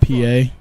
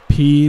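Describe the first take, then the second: First: The name is said as two syllables. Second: The name is said as one syllable. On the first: The speaker calls it wrong. "not P A" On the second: The speaker calls it right. "P, not P A"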